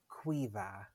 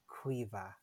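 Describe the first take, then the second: No difference in how they are said.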